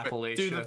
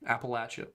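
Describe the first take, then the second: First: It is said in a New England way. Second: It is said in the local Southern way. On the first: "Say it the way you do, Fed. Say it, Yankee" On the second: "that's better"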